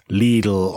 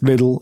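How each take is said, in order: First: The first vowel is long, like in Leeds. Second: The first vowel is short, like in little. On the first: "It doesn't work when it's Lidl on price" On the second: "You're not going to get me to change that"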